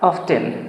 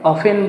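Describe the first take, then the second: First: The word is said with a clear t sound. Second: The word is said without a t sound. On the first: "অফেন বা অফটেন তোমরা যে যেভাবে উচ্চারণ করো সেটাই সঠিক আছে।" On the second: "অফেন বা অফটেন তোমরা যে যেভাবে উচ্চারণ করো সেটাই সঠিক আছে।"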